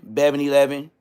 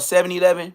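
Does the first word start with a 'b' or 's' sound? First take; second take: b; s. First: The first word starts with a 'b' sound. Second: The first word starts with an 's' sound. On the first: This is the way the speaker's group said it. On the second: This is the usual way to say it.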